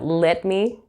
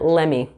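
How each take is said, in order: First: Both words are said fully and separately. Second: The words blend into one reduced word, lemme. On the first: "instead of let me" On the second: "you'll hear lemme"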